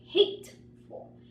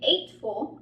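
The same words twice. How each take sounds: First: The word starts with a clear h sound. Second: The word starts with no h sound. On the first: The speaker calls it right. "I say hateful" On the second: The speaker calls it wrong. "I don't say hateful"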